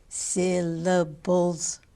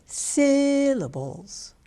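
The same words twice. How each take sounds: First: "Syllables" slowly in three even, level beats. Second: "syllables" with the first syllable high, loud and long; exaggerated syllable stress. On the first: Coach counting the beats in "Syllables", three slow even syllables. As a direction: give each syllable of "Syllables" equal length. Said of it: "three vowel sounds". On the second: Coach showing syllable stress in "syllables", first syllable held high and long. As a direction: stretch and punch the "syl" in "syllables". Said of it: "By saying it higher". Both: Shown as a demonstration.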